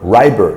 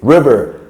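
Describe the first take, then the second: First: The middle consonant is a B sound. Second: The middle consonant is a V sound. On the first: The speaker calls it wrong. "she keeps saying, Riber" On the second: The speaker calls it right. "it's river, because you know the V and the B"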